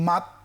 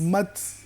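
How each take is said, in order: First: The final consonant ends with no breath release. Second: The final consonant ends with a light puff of breath. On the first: The speaker calls it wrong. "হামস আদায় হলো না" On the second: The speaker calls it right. "একটু বাতাস লিক করে বের হবে"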